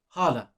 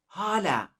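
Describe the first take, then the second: First: The a vowels sound plain and full. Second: The a vowels sound thinner and higher. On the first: It means aunt. "the pronunciation is hala, and that means aunt" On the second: It has a very different meaning. "These make the as much thinner. ... a bit more high pitched"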